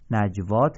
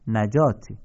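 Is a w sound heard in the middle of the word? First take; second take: yes; no. First: A w sound is pronounced before the long a. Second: No w sound is pronounced before the long a. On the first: The speaker calls it wrong. "نجوات نیست" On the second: The speaker calls it right.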